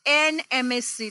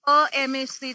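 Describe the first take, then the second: First: એન said before the vowel sound opening એમ; correct article demo. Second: અ set against the vowel opening એમ; wrong article demo. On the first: Teacher giving students the right article, demonstrating એન before એમ. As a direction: link એન into the spelt-out એમ S C. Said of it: "પ્રોનન્સિએશન અ થી શરૂ થયો". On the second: Teacher showing students what not to say, demonstrating અ before એમ. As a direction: put a bare અ before એમ S C. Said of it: "નહીં". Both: Shown as a demonstration.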